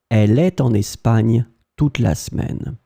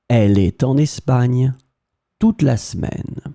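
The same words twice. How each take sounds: First: The vowel in 'est' is more open. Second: The vowel in 'est' is closed, like 'et'. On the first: "can be opened a bit more like est" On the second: "pronounced the same way"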